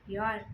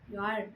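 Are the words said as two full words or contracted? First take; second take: contracted; contracted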